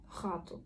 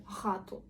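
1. Перше р — гортанний звук горла. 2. Перше р — гортанний звук горла.

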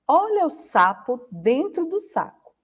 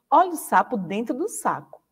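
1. Ela é dita muito devagar. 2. Ela é dita mais rápido. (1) "a Pró falou bem lentinho, bem devagarzinho" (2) "vai aumentar um pouquinho a velocidade agora"

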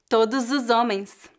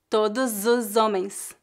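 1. As palavras são ligadas, com o S soando como Z. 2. As palavras são ligadas, com o S soando como Z.

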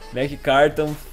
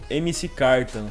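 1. A primeira parte é falada como uma sílaba. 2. A primeira parte é falada como duas letras. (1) "E é Mac que fala" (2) "eu sempre falo MC Carton"

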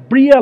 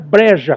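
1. O nome é pronunciado sem um som de 'j'. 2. O nome é pronunciado com um som de 'j'. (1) "é Bria Larson" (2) "não é Breja como se lê não"

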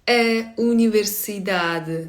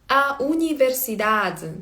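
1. Голосний артикля закритий, ближче до i. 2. Голосний артикля відкритий, як a. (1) "А в португальців такий більш И" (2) "в бразильців більш відкриті звуки"

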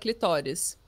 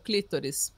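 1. O acento está na segunda sílaba. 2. O acento está na primeira sílaba. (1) "em português é clitóris" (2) "Porque a pronúncia em inglês"

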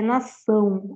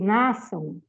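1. A tônica está na última sílaba. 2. A tônica está na primeira sílaba. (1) "a tônica é o som" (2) "Porque se a palavra fosse nação, ok, eu não ia contar o som"

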